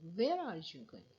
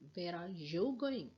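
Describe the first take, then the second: First: The stress falls on the word where. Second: The stress falls on the word you. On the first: The question is about the destination. "I want to put where the place I'm I mean I'm talking about the place" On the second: The question is about the person addressed. "means the person who is in front of me"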